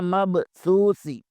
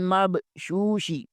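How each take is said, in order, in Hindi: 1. शब्द को सादी s ध्वनि के साथ बोला जाता है। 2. शब्द को sh ध्वनि के साथ बोला जाता है। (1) "बाद सीन पढ़ते हैं, ये दोनों गलत हैं" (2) "बाद लोग शीन ... पढ़ते हैं, ये दोनों गलत हैं"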